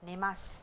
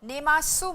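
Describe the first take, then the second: First: The final u vowel is dropped after s. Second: The final u vowel is fully pronounced. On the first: The speaker calls it right. "लेकिन प्रोनाउंस स किया जाता है" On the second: The speaker calls it wrong. "आप इसको नेमासु मत बोलिए"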